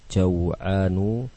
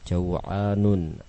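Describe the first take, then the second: First: The word ends in a vowel, without final n. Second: The word ends with an added final n sound. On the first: The speaker calls it right. "Semuanya tidak menerima tanwin" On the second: The speaker calls it wrong. "Salah kalau dibaca dengan"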